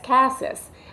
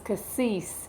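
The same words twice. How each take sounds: First: The last syllable sounds like 'sis', as spelled. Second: The last syllable sounds like 'sees', French-style. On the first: The speaker calls it right. "It's C A S S I S" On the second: The speaker calls it wrong. "It's not French. It's not C A S S E E S E"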